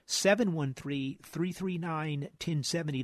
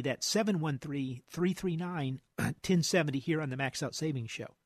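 First: Phone number read out slowly; slow, careful phone number; slow dictation. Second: Said in the usual way. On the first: Shown as a demonstration. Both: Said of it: "now's the time to get 'em in".

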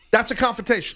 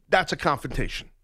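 First: "That's a confrontation" again, higher and punched on "That's"; emphatic repeat. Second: Said in the usual way. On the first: Shown as a demonstration. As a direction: land it hard the second time. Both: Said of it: "In my world".

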